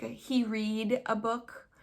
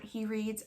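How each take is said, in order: First: "read" with no S on the end, as a learner's slip; dropped final S. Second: "reads" with the S on the end; the corrected form, "reads", ending in S; final S sounded. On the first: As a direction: say "read" in place of "reads", slowly. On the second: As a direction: give "reads" its closing S, as the correction. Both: Shown as a demonstration. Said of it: "things like dropping the S".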